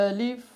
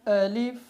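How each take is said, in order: The two takes are said the same way.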